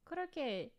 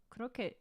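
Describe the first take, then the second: First: Korokke in Japanese, ko-ro-ke, tapped r and open final e; Korokke, each syllable even and a bit higher; Japanese pronunciation. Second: Korokke said the English way, like "kroket"; flat English "Korokke", a hard r and a t at the end; anglicized korokke. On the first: To her viewers, savouring the Japanese word: Korokke as ko-ro-ke. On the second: To her viewers, trying the word the English way first: Korokke as "kroket". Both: Shown as a demonstration. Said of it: "I just like saying it".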